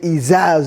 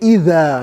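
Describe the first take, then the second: First: The middle consonant is a z sound. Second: The middle consonant is a th-like sound. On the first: The speaker calls it wrong. "you cannot say iza zulzila" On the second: The speaker calls it right. "You have to say either"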